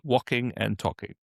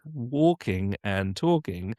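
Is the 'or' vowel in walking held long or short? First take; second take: short; long. First: The 'or' vowel is cut short. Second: The 'or' vowel is held long.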